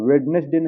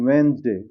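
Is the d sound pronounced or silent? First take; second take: pronounced; silent. First: The d is pronounced, with three syllables. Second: The d is silent, with two syllables. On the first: The speaker calls it wrong. "वेडनेसडे नहीं" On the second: The speaker calls it right. "क्या होगा यहाँ डी silent हो जाएगा"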